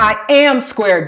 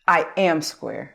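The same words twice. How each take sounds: First: It is said with more feeling and energy. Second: It is said plainly, with little feeling.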